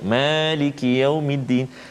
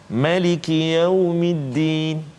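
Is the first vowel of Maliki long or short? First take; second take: long; short. First: The first vowel of Maliki is held long. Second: The first vowel of Maliki is kept short. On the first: This is the common local reading. "dengan dua harakat" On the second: This is a reading used in other countries. "qiraat yang lain, cara bacaan yang lain"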